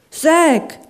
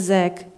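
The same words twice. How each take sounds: First: Higher, louder cry of a name; alarmed call. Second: Said in the usual way. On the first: Acted. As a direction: call out his name sharply. Lachlan calls out in alarm.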